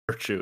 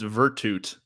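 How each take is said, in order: First: The name is said like English 'virtue', two syllables. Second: The name is said with three syllables, ending 'tute'. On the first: The speaker calls it wrong. "It's not Virtue" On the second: The speaker calls it right. "It's Virtute"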